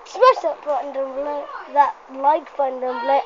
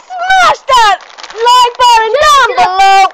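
First: Said in the usual way. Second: Higher, louder, slow shout; excited shout. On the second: Real, not acted. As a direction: yell the call to action. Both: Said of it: "Wait, I need to do the outro".

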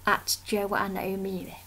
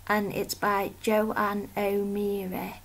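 First: Whispered name, voice dropped. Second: Said in the usual way. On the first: Real, not acted. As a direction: say the handle in a whisper.

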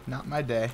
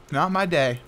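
First: "not my day" dropped much softer, trailing away; resigned murmur. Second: Said in the usual way. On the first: Real, not acted. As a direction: let "not my day" fade out defeated. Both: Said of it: "resigned repeat of phrase".

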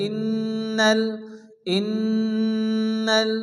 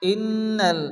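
First: Long nasal hum held on the nn of ইন্নাল; slow, humming nn in ইন্নাল; ghunna. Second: ইন্নাল with a shorter doubled n; ইন্নাল without the long drawn hum; first reading. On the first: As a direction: hold the doubled n in ইন্নাল through the nose. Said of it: "গুন্না করে পড়তে হবে". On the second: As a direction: read ইন্নাল with a brief nasal n. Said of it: "একাধিক পরিমাণ গুন্না করে পড়তে হবে". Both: Shown as a demonstration.

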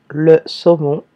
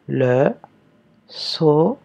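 First: Said in the usual way. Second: "Le saumon" slowly dictated with a break after each syllable; "saumon" split into sau... mon. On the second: Shown as a demonstration. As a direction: separate Le, sau and mon with clear pauses. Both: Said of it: "première syllabe".

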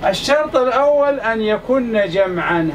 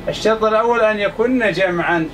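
First: Slow, deliberate, stress on الأول; teacher slowly dictating the first condition to students; slow dictation. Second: Said in the usual way. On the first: Shown as a demonstration. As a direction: spell out الشرط الأول أن يكن جمعا slowly, leaning on الأول. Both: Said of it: "هذا الشرط الأول".

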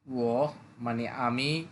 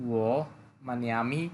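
No difference in how they are said.

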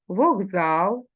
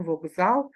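First: Вокзал said with a g, vogzal; voiced g pronunciation. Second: Said in the usual way. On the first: Shown as a demonstration. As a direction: say Вокзал as heard, g before z. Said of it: "Як ми вимовляємо". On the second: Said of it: "пишемо вокзал з буквою К".

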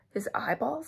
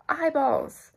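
First: Higher-pitched, questioning echo; acted rising question of alarm; horrified question. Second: High, loud cry of alarm; storybook shriek of discovery; alarmed exclamation. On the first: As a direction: ask it in mock disbelief, without shouting. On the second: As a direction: exclaim in mock horror, pitched up and falling. Acted alarmed discovery in soup. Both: A narrator's reading.

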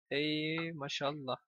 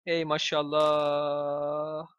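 First: Slow, much softer Ey maşallah; quiet slow mock blessing; softer slow repeat. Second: Very slow stretched mashallah; slow mock blessing; drawn-out sarcastic. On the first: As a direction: murmur Ey maşallah drawn out. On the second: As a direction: drag out Ey maşallah sarcastically. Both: Real, not acted.

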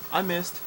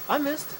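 First: Said in the usual way. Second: Much higher, squeaky exasperated repeat. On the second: Real, not acted. Gamer repeating his miss, higher and exasperated. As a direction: whine it out in disbelief. Repeats missing, rising frustration.

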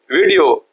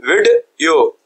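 First: Said in the usual way. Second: विड, clear pause, यो; split into syllables. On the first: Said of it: "यहाँ पे दरम्यान में एक break". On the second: Shown as a demonstration. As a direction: break the word in two as विड and यो. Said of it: "दरम्यान में एक break आ गई". (बीच में रुककर: विड… यो)

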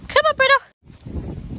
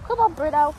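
First: High, slow, drawn-out coaxing; coaxing the dog. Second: Said in the usual way. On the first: Real, not acted. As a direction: stretch the words out high to lure him.

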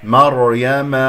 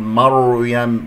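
First: مريم with open ma and thick r; correct heavy ra. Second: مريم with a rounded, over-thick mar; wrong ra. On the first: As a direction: recite مريم firmly as mar-ya-ma. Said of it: "هذا خطأ". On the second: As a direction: overdo the r and round the lips in مريم. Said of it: "ولا تقول". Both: Shown as a demonstration.

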